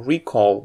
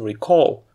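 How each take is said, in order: First: The stress is on the first syllable. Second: The stress is on the second syllable. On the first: It names the act of remembering. "the same stress pattern works for recall" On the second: It is the action of remembering. "versus to recall"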